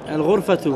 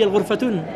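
First: The word ends on a vowel without n. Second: The word ends with an added n sound. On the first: The speaker calls it right. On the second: The speaker calls it wrong.

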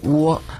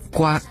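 First: Said with the Mainland pronunciation. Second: Said with the Taiwanese pronunciation. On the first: "蜗牛在内地读音为窝" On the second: "在台湾读音为瓜"

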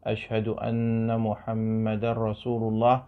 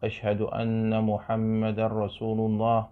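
No difference in how they are said.

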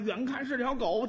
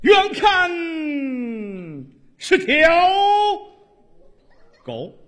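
First: It is spoken in a plain, ordinary manner. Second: It is declaimed in a resonant, theatrical manner. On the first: "大家听腻了" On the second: "你按话剧朗诵说这段死狗"

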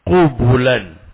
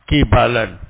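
First: The vowels are u then u. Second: The vowels are i then a. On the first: "Qafnya dan ba-nya sama-sama di dhammah" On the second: "Qafnya di kasrah ya"

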